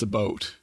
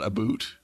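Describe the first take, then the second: First: "a boat" with an "oh" vowel; Canadian "about". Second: "a boot" with an "oo" vowel; exaggerated Canadian "about". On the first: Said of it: "most of Canada's not a boot". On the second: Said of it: "that's very exaggerated". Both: Shown as a demonstration.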